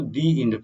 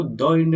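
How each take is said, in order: First: "दी एंड" with a long ee in "दी" before the vowel; correct the end. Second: "द end" with a short schwa "द" before the vowel; wrong the end. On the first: Teacher giving students the right "दी एंड" after the wrong one. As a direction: stretch "दी" into a clear ee, then "एंड". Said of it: "ये इसको द end नहीं पढ़ते". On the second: Teacher showing students the wrong "द end" before correcting it. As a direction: say "द end" the way it is not read. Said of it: "हम लोग इसको दी एंड पढ़ते हैं". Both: Shown as a demonstration.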